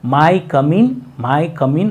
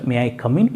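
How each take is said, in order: First: May and I merge into one syllable, my. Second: May and I are said as two separate syllables. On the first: It sounds like asking whether one's body may come in. The speaker calls it wrong. "ಮೈ come in ಅಂತಂದು ಅಂತಿರ್ತಾರೆ" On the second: It asks permission to enter. The speaker calls it right. "ಈ ರೀತಿಯಾಗಿ ಕೇಳಿ"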